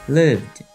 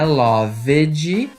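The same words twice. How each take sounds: First: The V and D join with no extra syllable. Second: The ending adds an extra vowel syllable. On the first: The speaker calls it right. "É praticamente o som do V e o D grudadinho" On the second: The speaker calls it wrong. "não é loved ... Esquece esse E que você tá querendo ler"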